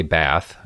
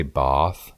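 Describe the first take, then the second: First: Bath with the short a of cat; American pronunciation. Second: Bath with a long "ah", as in father; British pronunciation. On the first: Midwesterner feeling like an idiot abroad, American pronunciation. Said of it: "when I say Bath, I feel like an idiot". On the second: American feeling pretentious copying locals, British pronunciation. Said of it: "I feel like a pretentious asshole". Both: Shown as a demonstration.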